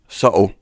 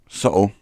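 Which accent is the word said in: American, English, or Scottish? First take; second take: Scottish; Scottish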